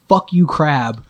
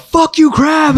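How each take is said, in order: First: Said in the usual way. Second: Yelled much higher and louder. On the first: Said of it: "I yelled at top of my lungs". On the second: Retold or imitated. Snapping at the crab in the fish room, full yell. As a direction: let it rip at the crab. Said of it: "I just yelled".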